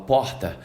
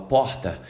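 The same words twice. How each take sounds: First: It is said in a Rio de Janeiro accent. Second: It is said in a Rio de Janeiro accent.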